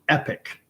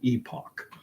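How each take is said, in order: First: The word sounds just like 'epic'. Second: The word does not sound like 'epic'. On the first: The speaker calls it wrong. "they pronounce it epic" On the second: The speaker calls it right. "I pronounce this word epoch"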